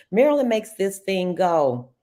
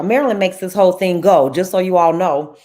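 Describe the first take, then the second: First: Said in the usual way. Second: Loud, quick enthusiastic praise; excited praise. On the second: Real, not acted. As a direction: praise her louder and faster with real excitement.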